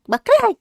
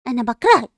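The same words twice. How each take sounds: First: Put-on higher, rising childish repeat; high whiny hate. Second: Low, bitter I hate you; low angry hate. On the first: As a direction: throw it back like a sulky child. (تكرار طفولي عالي) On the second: Acted. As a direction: spit it out low and resentful. (كره غاضب بصوت منخفض) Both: Girl fights with her sister.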